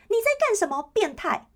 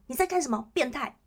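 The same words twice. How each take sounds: First: High, loud shout at the groper; loud yell. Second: Milder call-out. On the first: Girl on the bus shouting at the pervert, loud high yell. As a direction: call him out loudly so the whole bus hears. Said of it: "故意叫得很大声说". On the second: Girl slapping the groper's hand on the bus, a milder firm call-out. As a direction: call it out firmly but without a full yell. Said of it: "然后说". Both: Pretend.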